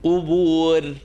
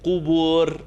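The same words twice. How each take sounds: No difference in how they are said.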